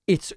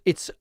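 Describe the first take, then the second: The two takes are said the same way.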